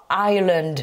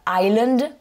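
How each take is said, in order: First: Ireland with an English R after the I; R sound pronounced. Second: Island said as I-land, S silent. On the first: Teacher contrasting it with island, R clearly said in Ireland. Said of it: "c'est important de bien prononcer". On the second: Teacher showing the mix-up to avoid, island without R or S sound. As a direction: leave out S and R in island. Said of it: "une lettre muette qui est le S". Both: Shown as a demonstration.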